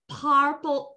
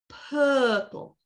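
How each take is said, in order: First: An R sound is pronounced after the vowel. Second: No R sound is pronounced after the vowel. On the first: The speaker calls it wrong. "R is bad. Purple, no" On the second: The speaker calls it right. "No R. Purple. Good"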